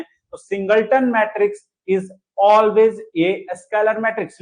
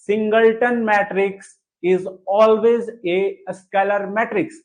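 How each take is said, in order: First: Said in the usual way. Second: Very slow, word by word, for writing down; slow dictation. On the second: Shown as a demonstration. Teacher dictates the rule for students to write, slowly. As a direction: dictate it so they can copy. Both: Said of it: "लिखिए इसको".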